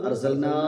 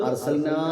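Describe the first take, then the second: The two takes are said the same way.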